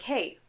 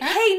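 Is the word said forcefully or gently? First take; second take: gently; forcefully. First: The word is said softly and calmly. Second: The word is said loudly and forcefully. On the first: The character walks in without urgency. The speaker calls it wrong. "he literally gently walks in and is like" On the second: The character bursts in with urgency. The speaker calls it right. "he's supposed to, like, burst into this room and be like"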